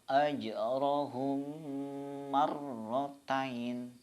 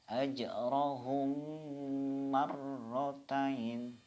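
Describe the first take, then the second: No difference in how they are said.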